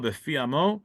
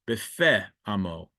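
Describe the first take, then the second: First: The first word ends with an 'ee' sound. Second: The first word ends with an 'eh' sound. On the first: This is the reading given in the highlighted text. "don't say it this way" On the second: "They say Hamihulal bifeh with a hey"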